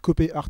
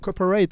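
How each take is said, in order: First: The name is said with a German-style accent. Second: The name is said with a Californian accent. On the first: "on vient tous d'Allemagne, c'est Copé Art" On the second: "avec l'accent euh, de Californie"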